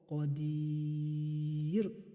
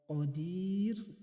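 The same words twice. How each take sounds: First: The long vowel is held for six counts. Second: The long vowel is held for four counts.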